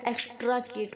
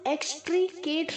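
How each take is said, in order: First: The second syllable has an ah vowel. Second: The second syllable has a long ee vowel. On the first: "ना ही टी आर ए की तरह" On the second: "एक्सट्रीकेट नहीं बोलेंगे"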